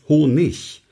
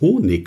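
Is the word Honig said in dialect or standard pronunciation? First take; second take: standard; dialect. First: The word's ending is said in standard form. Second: The word's ending is said in a dialect way. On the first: The speaker calls it right. "Es heißt Honig" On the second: The speaker calls it wrong. "ein Profisprecher würde niemals Honig sagen. Denn Honig ist Dialekt"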